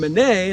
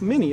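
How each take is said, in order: First: It is pronounced the French way. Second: It is pronounced the American way, like mini. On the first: "the French name Minié" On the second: "switched it over to an American pronunciation, it looked like mini"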